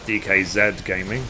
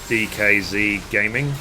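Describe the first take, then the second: First: It is said with a British pronunciation. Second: It is said with a non-British pronunciation.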